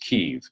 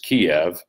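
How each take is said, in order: First: The name is said the Ukrainian way. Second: The name is said the Russian way. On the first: "The Ukrainian pronunciation of that city is Kyiv" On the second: "the Russian pronunciation for that capital city is Kiev"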